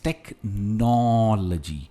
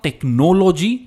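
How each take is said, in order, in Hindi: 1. Stress दूसरे syllable पर है। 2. स्ट्रेस दूसरे सिलेबल पर नहीं है। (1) "स्ट्रेस नौ पर है" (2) "इट्स नॉट टेक्नोलॉजी"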